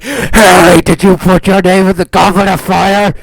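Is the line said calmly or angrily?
angrily. Dumbledore's line is shouted angrily.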